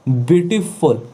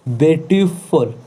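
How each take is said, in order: First: Said in the usual way. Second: beautiful said slowly as beauty, a small gap, then फुल; slow beautiful with a clear pause between its two parts; split into syllables. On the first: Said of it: "देख रहे हो, दो बार आ रहा". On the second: Shown as a demonstration. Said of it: "दो बार, थोड़ा सा gap ले रहा". (ब्यूटीफुल को धीरे से ब्यूटी, थोड़ा रुककर, फिर फुल बोलें)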